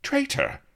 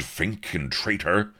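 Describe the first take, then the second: First: Far higher, astonished exclamation; exclaimed. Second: Traitor said at speaking pitch, stressed; accusing. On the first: Blood exclaims back at Avery, much higher and astonished. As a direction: shoot up in outraged disbelief. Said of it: "exclaimed Blood". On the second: Avery accuses. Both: A narrator's reading.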